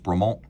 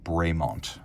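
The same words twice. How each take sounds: First: The name is pronounced the French way. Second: The name is pronounced the English way. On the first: This is the original name of the farmer. "So his name was Bremont" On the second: This is how the company name is usually said. "the company is generally pronounced Bremont"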